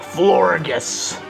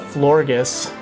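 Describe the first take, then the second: First: The word is said in an annoying voice. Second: The word is said in a normal voice. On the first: "in an annoying voice" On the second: "I usually just call it"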